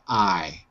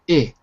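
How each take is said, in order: First: The vowel is long, like 'eye'. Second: The vowel is short, like 'ih'. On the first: "long sound" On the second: "it becomes the short sound"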